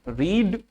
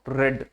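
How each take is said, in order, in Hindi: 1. स्वर लंबी 'ee' ध्वनि है। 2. स्वर छोटी 'e' ध्वनि है। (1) "अब ये रीड ना पढ़ना" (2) "पास्ट और past participle form ... रेड रेड होती है"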